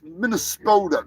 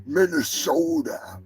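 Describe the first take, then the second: First: "Minnesota" said Minnes-KO-ta, a k slipped in; "Minnesota" as Minneskota, mocking. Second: "Minnesota" said slowly, Minne-SO-ta with no k; proper "Minnesota", no k sound; careful Minnesota. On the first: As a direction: imitate the k slip in "Minnesota". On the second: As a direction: say "Minnesota" right, slow and deliberate. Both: Shown as a demonstration. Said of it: "don't make it Minnes".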